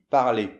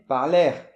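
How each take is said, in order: First: The word ends in a vowel with silent R. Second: The word ends with an audible R sound. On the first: The speaker calls it right. "Donc on dit parler" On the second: The speaker calls it wrong. "il faut surtout pas dire par l'air"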